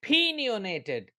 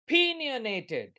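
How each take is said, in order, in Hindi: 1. यह एक कमज़ोर, मुश्किल से सुनाई देने वाले स्वर से शुरू होता है। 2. यह एक कमज़ोर, मुश्किल से सुनाई देने वाले स्वर से शुरू होता है।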